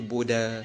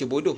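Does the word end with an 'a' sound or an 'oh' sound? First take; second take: a sound; oh sound. First: The word ends with an 'a' sound. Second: The word ends with an 'oh' sound. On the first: The speaker calls it wrong. "jangan baca boda" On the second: The speaker calls it right. "baca bodoh"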